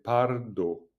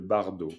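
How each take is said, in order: First: The word is pronounced the Tibetan way. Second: The word is pronounced the French way. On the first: "en tibétain, c'est pardo" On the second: "À la française, c'est le bardo"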